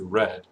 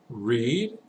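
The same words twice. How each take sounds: First: The vowel is short, like in 'red'. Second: The vowel is long, like in 'reed'. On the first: It is the past participle. "the pronunciation in the past participle is read" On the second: It is the base form of the verb. "this one's interesting"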